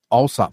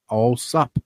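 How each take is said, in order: First: The name is said at ordinary speed. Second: The name is said slowly and drawn out. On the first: "Say it again" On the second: "Say slowly"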